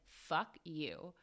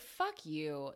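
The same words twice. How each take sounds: First: It sounds hostile and serious. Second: It sounds exasperated and joking.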